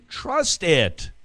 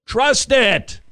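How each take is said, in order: First: Said in the usual way. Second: Much higher and louder, pressing it home; urgent loud plea. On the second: Acted. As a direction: Trust it! hammered as a cry to believe. Repeats Trust it, building up.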